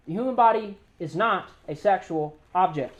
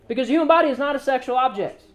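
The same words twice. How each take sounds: First: Slower and softer, every word weighed; "The human body is not a sexual object" laid down slowly and firmly; slow, weighty restatement. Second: Said in the usual way. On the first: Shown as a demonstration. Preacher repeats his key point to the crowd, slow and weighty. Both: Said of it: "Y'all hear me?".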